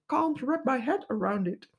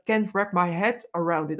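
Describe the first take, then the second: First: Plummy upper-class English accent; posh English accent. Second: Said in the usual way. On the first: Shown as a demonstration. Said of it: "in, eh, posh English". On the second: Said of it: "posh English".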